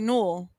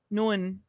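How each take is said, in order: First: The name ends with an L sound. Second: The name ends with an N sound. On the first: The speaker calls it wrong. "it looks like Null" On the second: The speaker calls it right. "they pronounce it Nun"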